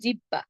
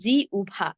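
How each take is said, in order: First: The middle is a doubled b sound. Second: The middle is a u followed by bh. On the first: The speaker calls it wrong. "আমরা অনেকে বলি জিব্বা। জিব্বা হবে না" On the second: The speaker calls it right. "এর উচ্চারণ হবে জি উভা"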